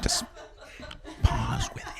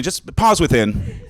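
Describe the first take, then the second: First: Breathy whisper, almost silent. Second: Calm coaching. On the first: Comic whispering the pun to the crowd, soft and airless. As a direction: whisper it like a meditation guide. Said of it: "You can do that". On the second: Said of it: "Take a minute". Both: Shown as a demonstration.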